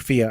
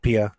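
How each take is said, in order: First: The name begins with an f sound. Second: The name begins with a p sound. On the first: The speaker calls it wrong. "no more Fia" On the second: The speaker calls it right. "Silent H, uh, no Pia. So said, so said like Pia"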